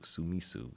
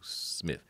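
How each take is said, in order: First: Vowels are added between consonants, three syllables. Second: Consonants run together in one syllable. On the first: This is how the name is said in Japan. "How they pronounce it is Sumisu" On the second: This is the original form of the name. "because it's Smith"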